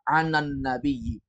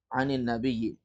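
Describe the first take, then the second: First: The first word ends with an a vowel. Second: The first word ends with an i vowel. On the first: The speaker calls it wrong. "tidak pernah membaca anan nabiyyi" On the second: The speaker calls it right. "nunnya diharokati dengan kasrah"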